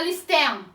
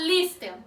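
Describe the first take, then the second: First: The stress is on the last syllable. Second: The stress is on the first syllable. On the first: The speaker calls it wrong. "a gente não fala listen" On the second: The speaker calls it right. "A gente fala listen. Então, a última sílaba não é a sílaba tônica"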